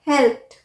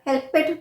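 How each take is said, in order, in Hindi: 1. शब्द का अंत t ध्वनि से होता है। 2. अंत में अतिरिक्त 'ed' सिलेबल है। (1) "हमने ईडी को प्रोनाउंस किया ठ" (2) "या हेल्पेड भी नहीं"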